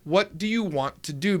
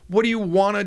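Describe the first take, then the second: First: Each word is said clearly and separately. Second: The words are run together and reduced.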